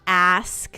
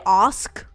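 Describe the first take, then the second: First: "ask" with a short front a, as in "axe"; American-style ask. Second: "ask" with a long broad ah, like "ahsk"; own accent's ask. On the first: Streamer shows the way she doesn't talk, "ask" with short a. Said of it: "I say ask, not ask". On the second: Streamer explains her accent, "ask" said long as "ahsk". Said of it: "Yeah, I say ask, not ask". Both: Shown as a demonstration.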